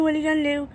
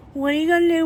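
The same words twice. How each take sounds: First: Calmer repeat, stress on What; quieter, What stressed; softer resigned repeat. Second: Louder rhetorical what are you gonna do; louder and higher, gonna stressed; louder, higher resigned shrug. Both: Real, not acted.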